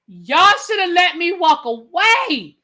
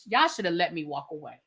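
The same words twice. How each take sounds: First: Louder, slow, drawn-out complaint; exasperated outburst. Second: Soft, low grumble to himself; muttered complaint. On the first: Exasperated, telling viewers he should have stopped watching. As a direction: stretch it out, fed up. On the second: Grumbling quietly to viewers about not stopping. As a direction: say it under your breath, resigned. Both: Real, not acted.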